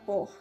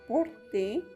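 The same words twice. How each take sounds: First: The final vowel is silent after the t. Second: The final vowel is clearly pronounced. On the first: The speaker calls it right. "no suena la E como tal, sino la E de la T" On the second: The speaker calls it wrong. "que nosotros podríamos pronunciarla así en español"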